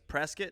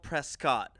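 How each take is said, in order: First: It is pronounced in a folksy country way. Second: It is pronounced the way it is spelled. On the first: "everyone says Prescott" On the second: "it's spelled Prescott"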